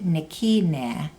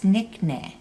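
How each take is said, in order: First: The word is said with three full syllables. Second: The word is said shortened to two syllables. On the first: The speaker calls it wrong. "you don't say Nikina" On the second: The speaker calls it right. "it's Nickna. It's a shorter way of saying"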